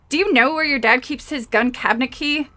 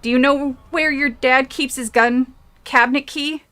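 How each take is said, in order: First: It is said in a put-on Valley Girl voice. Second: It is said in the reader's normal voice.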